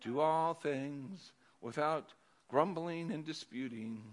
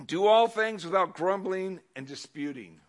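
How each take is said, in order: First: "Do all things without" slow and softer, then a pause before "grumbling and disputing"; quieter, deliberate reread with a dramatic pause; slow, paused for effect. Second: "Do all things without grumbling and disputing" read at normal level; plain first read of the verse; read aloud plainly. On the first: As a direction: hold back and pause for effect. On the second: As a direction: straight reading before the pause. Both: Shown as a demonstration. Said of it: "Pause for, for effect".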